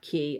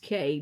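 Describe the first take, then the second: First: The vowel sounds like the one in 'see'. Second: The vowel sounds like the one in 'day'. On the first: "not Key" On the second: "which is K"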